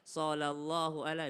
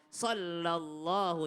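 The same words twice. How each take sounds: First: SALLALLAHU quick, first l undoubled; wrong SALLALLAHU with no held l; missed tasydid. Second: SALLALLAHU slow, first l doubled and held; drawn-out SALLALLAHU, sol-lallahu; correct tasydid. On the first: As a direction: say SALLALLAHU as so-lallahu, as a mistake. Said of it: "jangan bukan sallallahu ala". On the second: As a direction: hold SAL before LALLAHU. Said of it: "itu ada tasydidnya". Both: Shown as a demonstration.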